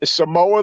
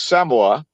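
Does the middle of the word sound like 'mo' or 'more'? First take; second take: more; mo. First: The middle syllable sounds like the word 'more'. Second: The middle syllable is said as plain 'mo'. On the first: It makes a pun on a familiar saying. "I like to say Samoa the Merrier" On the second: This is the locally used pronunciation. "which I guess is the proper pronunciation"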